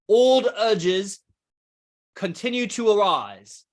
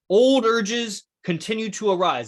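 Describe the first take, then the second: First: It is read in a put-on British accent. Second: It is read in the speaker's usual accent.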